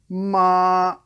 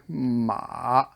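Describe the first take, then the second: First: The pitch stays high and level. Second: The pitch dips low, then comes up. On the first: "the airplane" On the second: "the shovel, dig"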